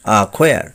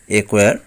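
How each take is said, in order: First: অ্যাকোয়ার said "a-khoyar"; corrected pronunciation. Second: অ্যাকোয়ার said "e-koyar"; common mispronunciation. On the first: Teacher correcting learners, অ্যাকোয়ার as "a-khoyar". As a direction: say অ্যাকোয়ার with "a" and aspirated "kh". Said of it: "সঠিক উচ্চারণ হবে". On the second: Teacher showing the common way, অ্যাকোয়ার as "e-koyar". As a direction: say অ্যাকোয়ার with "e" and plain k. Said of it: "আমরা উচ্চারণ করে থাকি". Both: Shown as a demonstration.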